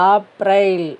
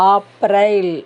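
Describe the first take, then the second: The two takes are said the same way.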